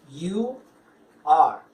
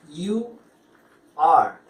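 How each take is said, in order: No difference in how they are said.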